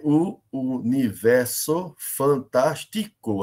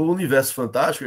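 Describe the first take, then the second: First: Very slow, every syllable of "universo fantástico" set apart. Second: Said in the usual way. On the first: Shown as a demonstration. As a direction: count out "universo fantástico" in separate beats, down to the final CO. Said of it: "nove sílabas gramaticais". ("universo fantástico" separado sílaba por sílaba, bem devagar) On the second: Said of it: "A gente tem nove sílabas".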